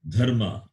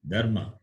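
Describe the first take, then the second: First: The first consonant has a strong breath. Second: The first consonant has no breath. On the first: The speaker calls it right. "Fourth letter is Mahaprana, Dha" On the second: The speaker calls it wrong. "It is not a"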